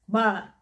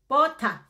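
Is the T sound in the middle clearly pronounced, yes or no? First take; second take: no; yes. First: The word is said with a British accent. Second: The word is said with a Cameroonian accent. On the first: This is how British people say it. "In British, you would call it butter" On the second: This is how people in Cameroon say it. "in Cameroon they say bot ah"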